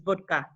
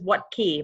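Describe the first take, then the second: First: It starts with a v sound and ends 'ka'. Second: It starts with a w sound and ends 'key'. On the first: The speaker calls it right. "the real pronunciation is vodka" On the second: The speaker calls it wrong. "I was pronouncing it incorrectly"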